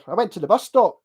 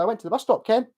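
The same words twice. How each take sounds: First: "stop" swung upward, Stirling-style; lifted ending. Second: Scottish lilt with "Ken" tagged on the end; imitated local Scottish tag; local Scottish accent. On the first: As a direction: send "bus stop" up at the end. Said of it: "Up here". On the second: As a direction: tack a throwaway "Ken" onto a Scottish sentence. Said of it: "you can say Ken at the end". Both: Shown as a demonstration.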